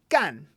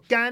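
First: The tone falls sharply from high to low. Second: The tone is high and level. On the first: It means to do work. "So now it is in the fourth tone" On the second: It means dry. "the entrance first tone"

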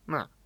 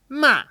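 First: The pitch starts middle and falls low. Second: The pitch starts high and falls low. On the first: The speaker calls it wrong. "I'll say ma, ma. And then it's very similar to third tone because you're starting too low" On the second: The speaker calls it right. "instead of ma"

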